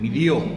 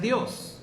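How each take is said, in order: First: The final S sound is dropped. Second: The final S sound is pronounced. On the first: "no dice la S" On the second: "lo pronuncian Dios"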